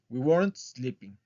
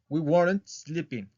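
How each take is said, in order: Both takes have the same delivery.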